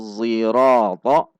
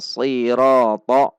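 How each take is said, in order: First: The word begins with an emphatic z sound. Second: The word begins with an emphatic s sound. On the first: "menggunakan zai yang ditafkhim" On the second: "menggunakan sod"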